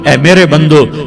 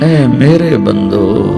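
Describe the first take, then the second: First: It is said in a plain, unaffectionate tone. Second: It is said in a warm, loving tone. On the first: The speaker calls it wrong. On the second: The speaker calls it right.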